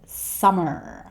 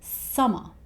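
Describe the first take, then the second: First: The word ends with an R sound. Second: The word ends with a schwa vowel. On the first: "He doesn't say summer" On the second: "He just ends this word with a, the schwa sound"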